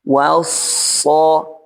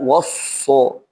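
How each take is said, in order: First: The wa sound is light, not thickened. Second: The wa sound is heavy and thickened. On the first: The speaker calls it right. "kalau pelannya waw so" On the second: The speaker calls it wrong. "bukan wasso"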